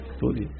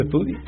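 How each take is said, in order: First: Soft firm repeat. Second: "estudie" lifted on a rising tune; rising exhortation; urging with a rise. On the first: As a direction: say "Estudie" quietly, final. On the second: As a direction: push "estudie" upward as an appeal. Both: Shown as a demonstration.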